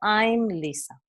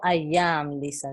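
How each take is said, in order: First: I am is shortened into one syllable. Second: I am is said as two separate words. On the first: The speaker calls it right. "digo I'm Lisa" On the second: The speaker calls it wrong. "No digo I am Lisa"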